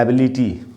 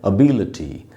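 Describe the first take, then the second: First: The 'li' syllable has a full 'lee' vowel. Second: The 'li' syllable has a weak 'luh' vowel. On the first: The speaker calls it wrong. "जैसे हम बोलते हैं ना एबिलिटी" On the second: The speaker calls it right. "उसका सही उच्चारण है अबिलिटी, लटी होगा"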